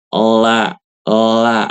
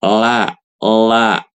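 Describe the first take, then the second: Both takes have the same delivery.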